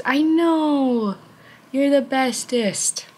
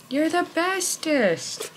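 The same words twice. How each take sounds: First: Slow, high doting praise; pet praise. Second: Even higher, slower doting praise; pet praise. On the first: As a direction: dote on the cat slowly and high. Praising the cat. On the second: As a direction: stretch it out higher for the cat. Praising the cat again. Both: Real, not acted.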